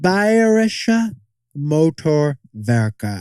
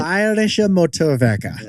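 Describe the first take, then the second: First: The phrase is said at a slower pace. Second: The phrase is said at a quicker pace.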